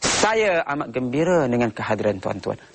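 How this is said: The stress is on the word saya. The speaker puts importance on himself. "Penekanannya saya"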